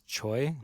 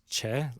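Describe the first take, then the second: First: The name is said with an 'oy' vowel. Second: The name is said with an 'eh' vowel. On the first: This is how the spelling is read. The speaker calls it wrong. "the way we read it is Choi" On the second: This is how the name is actually pronounced. The speaker calls it right. "but it's Che as in C H A E"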